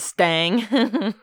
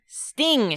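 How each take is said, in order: First: The vowel is drawled toward an a sound. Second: The vowel is a short, plain i sound.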